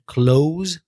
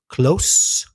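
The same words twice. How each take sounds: First: The final consonant is a voiced z sound. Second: The final consonant is an unvoiced s sound. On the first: It means to shut. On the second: It means near. "that's unvoiced"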